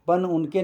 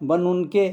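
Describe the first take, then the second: No difference in how they are said.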